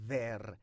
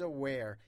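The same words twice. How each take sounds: First: The word begins with a V sound. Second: The word begins with a W sound. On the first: The speaker calls it wrong. "هیچ وقت نگین where. W در زبان انگلیسی V تلفظ نمیشه" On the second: The speaker calls it right. "دقت داشته باشیم بر تلفظ where"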